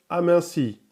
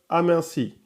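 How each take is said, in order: Both takes have the same delivery.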